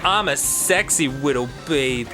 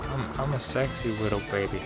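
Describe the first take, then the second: First: It is said loudly and clearly. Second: It is said quietly and hesitantly.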